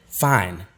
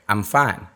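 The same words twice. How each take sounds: First: Curt single-beat "Fine," dropping flat; a short falling "Fine," that sounds off-putting; dismissive one-beat answer. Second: A friendlier two-beat "I'm fine,"; polite two-beat answer. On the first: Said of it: "a little dismissive". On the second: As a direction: give "I'm fine," more than one beat. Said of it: "expecting more than one beat". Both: Shown as a demonstration.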